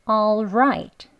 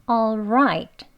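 No difference in how they are said.

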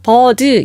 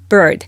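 First: The word is said with two syllables. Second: The word is said with one syllable. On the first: The speaker calls it wrong. "bird 이음절이 아니라요" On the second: The speaker calls it right. "혀도 한번 구부려주시고요"

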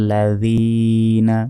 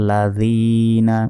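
Both takes have the same delivery.

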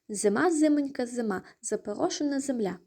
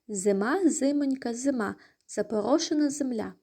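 First: The phrase is said at a faster pace. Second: The phrase is said at a slow pace.

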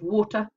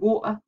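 First: The middle t is pronounced as a clear t. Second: The middle t is replaced by a glottal stop. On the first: "instead of water" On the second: "How many people are saying water instead of"

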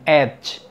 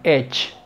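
First: A d-like closure is heard before the final sound. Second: No d-like closure is heard before the final sound. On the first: The speaker calls it right. "fíjate bien, edge" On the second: The speaker calls it wrong. "Si yo omitiera completamente la D en esta palabra, sería como que edge"

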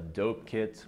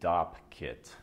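First: The first word rhymes with 'hope'. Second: The first word rhymes with 'top'. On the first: The speaker calls it wrong. "not a dope kit" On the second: The speaker calls it right. "I called it a Dopp kit"

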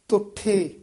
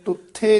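First: The word begins with dental t. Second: The word does not begin with dental t. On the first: The speaker calls it right. "ਤੱਤੇ ਨਾਲ ਉਚਾਰਨ ਕਰਨਾ" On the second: The speaker calls it wrong. "ਤੁਠੇ ਨਹੀਂ ਕਹਿਣਾ"

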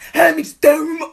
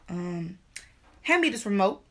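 First: The command is said with too much force. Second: The command is said with calm, moderate firmness. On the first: The speaker calls it wrong. "No, that's too much" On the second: The speaker calls it right. "Yeah, that's the tone right there"

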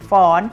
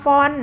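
First: The syllable is said with a high tone. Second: The syllable is said with a falling tone. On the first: "เขียนรูปโทแต่ออกเสียงเป็นเสียงตรีค่ะ" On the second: "ฟอฟันไม้เอกออ่างนอหนูเขียนรูปเอกแต่ออกเป็นเสียงโท"

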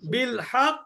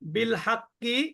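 First: It stops on the consonant with an echoing bounce. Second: It flows on to a final vowel without a bounce. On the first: "আমি যদি এখানে থেমে যাই" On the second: "বিল হাক্কি কলকলা হবে না"

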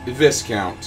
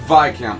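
First: The S sound in the word is pronounced. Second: The S sound in the word is silent. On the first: The speaker calls it wrong. "not Viscount" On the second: The speaker calls it right. "it is Viscount, ... the S is silent"

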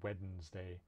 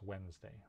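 First: The first D sound is pronounced. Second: The first D sound is left out. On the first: "I have known a few people who say Wednesday" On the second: "that first D in Wednesday usually isn't pronounced"

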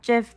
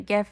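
First: The word begins with a j sound. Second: The word begins with a hard g sound. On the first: This sounds like the peanut butter brand. The speaker calls it wrong. "not GIF, because I go with the linguistic rules, not peanut butter rules" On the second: This follows the linguistic rules. The speaker calls it right. "I say GIF"

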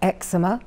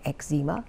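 First: The word is said in a non-American pronunciation. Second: The word is said in an American pronunciation.

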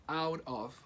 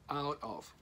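Both takes have the same delivery.

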